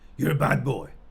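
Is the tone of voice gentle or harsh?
harsh. It is said in a harsh, condemning tone. The child himself is bad and worthless. The speaker calls it wrong.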